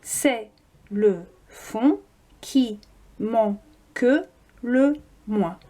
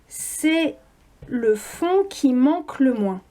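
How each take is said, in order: First: The e of manque is pronounced. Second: The e of manque is silent. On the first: The line has eight syllables. "Huit syllabes" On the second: The line has seven syllables. "Si on ne prononce pas le E de manque, on a sept syllabes"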